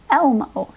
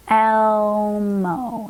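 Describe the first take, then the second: First: Said in the usual way. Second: "Elmo" drawn out sound by sound; stretched out. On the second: Shown as a demonstration. Teacher thinks through removing a sound, stretched out. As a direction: hold the "El" long, then glide into "mo".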